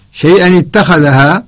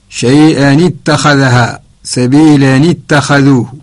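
First: Said in the usual way. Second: "شيئا اتخذها" slowed, tanwin joined with a kasra into "اتخذها"; slow linked reading. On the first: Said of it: "اتخذها ليس فيها تنوين". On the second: Shown as a demonstration. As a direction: read "سبيلا اتخذوه" slowly, linking the nun into the next word. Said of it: "العكس". (قراءة بطيئة بوصل التنوين بكسرة في "شيئا اتخذها")

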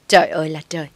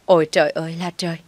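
First: Louder lament of "Trời ơi là trời"; wailing cry. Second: Fast, louder wail of "Ôi trời ơi là trời". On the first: Mother-in-law wailing at her son who talks back. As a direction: wail "Trời ơi là trời" to the heavens. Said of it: "Bà Tâm lại gào lên". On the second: Mother-in-law wailing even louder at her son. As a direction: outdo her earlier cry of "Ôi trời ơi là trời". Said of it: "Bà Tâm lại gào to hơn". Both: Acted.

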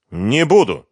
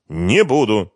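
First: Firm refusal. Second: Flat, final "Не буду" with stress on НЕ; firm refusal. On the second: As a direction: say "Не буду" again, pressing on НЕ. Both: A narrator's reading. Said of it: "твёрдо сказал Ренат".

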